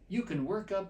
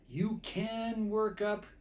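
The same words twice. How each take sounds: First: The word can is said with a weak vowel. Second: The word can is said with a full vowel. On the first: "I said you can you can work up" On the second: "I didn't actually say it that way"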